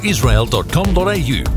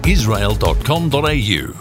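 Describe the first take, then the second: No difference in how they are said.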